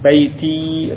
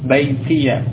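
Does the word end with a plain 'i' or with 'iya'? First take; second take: i; iya. First: The word ends in a plain 'i' sound. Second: The word ends with an added 'ya' syllable. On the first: "boleh sukun" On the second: "Ya-nya di fathah"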